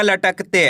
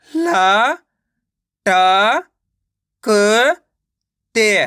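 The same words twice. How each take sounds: First: Said in the usual way. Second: "ला, टा, क, ते" with a pause after each; teacher's syllable-by-syllable "ला, टा, क, ते"; sounding out syllables. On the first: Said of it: "मिलके बन जाएगा". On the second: Shown as a demonstration. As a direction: stretch "ला", "टा", "क" upward, closing on "ते". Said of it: "डायरेक्ट मात्रा का उच्चारण करके पढ़ेंगे".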